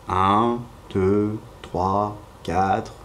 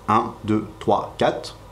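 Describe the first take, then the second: First: The numbers are counted at a slow pace. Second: The numbers are counted at a fast pace. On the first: "ou plus lentement" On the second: "on peut les compter plus vite"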